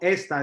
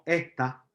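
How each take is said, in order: First: The s is pronounced fully as a hiss. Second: The s is aspirated like a soft h. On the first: This is the standard form. "no decimos esta" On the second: This is the Puerto Rican form. "Porque aspiramos la E"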